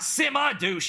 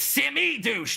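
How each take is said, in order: First: The first word ends with an 'uh' sound. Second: The first word ends with an 'ee' sound. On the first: The speaker calls it wrong. "not Simma douche" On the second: The speaker calls it right. "It's Simmy douche"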